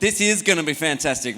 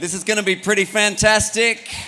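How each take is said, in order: First: The voice falls at the end like a statement. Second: The voice rises at the end like a question. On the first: It sounds like a statement. The speaker calls it right. "That's better" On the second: It sounds like a question. The speaker calls it wrong. "that was sounded like a question"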